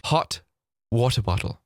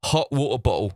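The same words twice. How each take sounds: First: Said in the usual way. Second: HOT WATER BOTTLE with every T swallowed; English glottal stops. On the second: Retold or imitated. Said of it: "to quote some of my fellow Englishmen".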